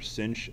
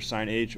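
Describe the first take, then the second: First: The word is said without a separate letter h. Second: The h is spoken as a separate letter. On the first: "or sinh" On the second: "you can pronounce it either sine h"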